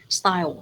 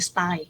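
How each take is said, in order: First: The final sound of the word is clearly pronounced. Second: The final sound of the word is dropped. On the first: The speaker calls it right. "the correct pronunciation of that word" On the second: The speaker calls it wrong. "remember the final sound. Don't just say style"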